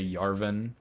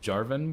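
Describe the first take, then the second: First: The name begins with a Y sound. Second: The name begins with a J sound. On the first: The speaker calls it wrong. "every J sound like Y" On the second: The speaker calls it right. "It's Jarvan"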